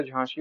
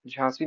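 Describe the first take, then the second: First: झांसी said nearer 'jhaanshee'. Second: झांसी said with 's'; rejected s. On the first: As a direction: say झांसी with a 'sh' sound. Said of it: "होता है". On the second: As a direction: say झांसी as 'jhaansee'. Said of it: "नहीं होता". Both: Shown as a demonstration.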